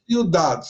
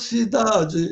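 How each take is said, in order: First: It is said with a Spanish-style pronunciation. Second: It is said with a Brazilian Portuguese pronunciation. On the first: "ciudade é em espanhol" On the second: "cidade no Brasil é diferente"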